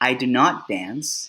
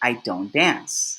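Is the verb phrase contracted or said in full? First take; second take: full; contracted. First: The words do and not are said separately. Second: The words do and not merge into don't. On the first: "Instead of saying" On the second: "it is probably more common to say"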